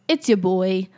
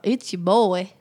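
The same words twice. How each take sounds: First: It is said in a plain, ordinary voice. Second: It is said in a strong country accent.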